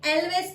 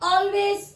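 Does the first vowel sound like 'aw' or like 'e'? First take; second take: e; aw. First: The first vowel sounds like 'e' in 'bet'. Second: The first vowel sounds like 'aw' in 'law'. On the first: The speaker calls it wrong. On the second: The speaker calls it right.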